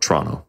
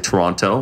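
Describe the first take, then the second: First: The syllables run together in a slur. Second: Every syllable of the word is said clearly. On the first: This is the way locals say it. The speaker calls it right. "it's like a slur, like Toronto" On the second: This is the way locals do not say it. The speaker calls it wrong. "we don't say Toronto"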